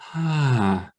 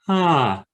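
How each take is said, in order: First: The vowel starts with an audible breath. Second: The vowel starts cleanly, neither breathy nor abrupt.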